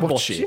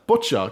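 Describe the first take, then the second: First: The word ends without a final 'a' vowel. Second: The word ends with a final 'a' vowel. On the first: The speaker calls it wrong. "Jeg sa bocci. ... Jeg uttalte denne sporten ... feil" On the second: The speaker calls it right. "Hva er riktig uttalelsen da?"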